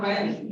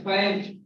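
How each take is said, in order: First: 'fans' ending in a plain S; wrong final S. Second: 'fans' ending in a voiced J-like Z; correct final sound. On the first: Teacher showing what to avoid, final S. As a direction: end 'fans' on an unbuzzed S. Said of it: "that is not fans". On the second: Teacher correcting the word, voiced ending. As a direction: end 'fans' with a buzz. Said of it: "that is fans". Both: Shown as a demonstration.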